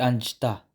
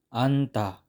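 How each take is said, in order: First: A j sound is pronounced. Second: The j sound is silent. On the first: The speaker calls it wrong. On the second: The speaker calls it right.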